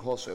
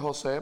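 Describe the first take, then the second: First: José stressed on the O, as HÓ-se; first-syllable stress on José. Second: José stressed on the É, as ho-SÉ; final-syllable stress on José. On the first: Guest gives his friends' nickname, José stressed on O. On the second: Guest gives his birth-certificate name, José stressed on É. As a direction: say José with the weight on its last syllable. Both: Shown as a demonstration. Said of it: "José con acento en la O".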